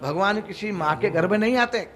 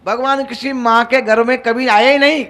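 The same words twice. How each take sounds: First: Said in the usual way. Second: Louder, forceful "कभी आए ही नहीं"; emphatic restatement. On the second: Shown as a demonstration. Preacher insists to listeners "कभी आए ही नहीं", emphatic. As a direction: drive home "कभी आए ही नहीं" with raised volume. Same statement repeated with emphasis.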